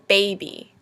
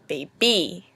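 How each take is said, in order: First: The stress is on the first syllable. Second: The stress is on the second syllable. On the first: The speaker calls it right. "First a stressed and then an unstressed syllable. We pronounce it baby" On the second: The speaker calls it wrong. "not baby"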